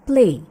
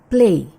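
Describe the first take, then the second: No difference in how they are said.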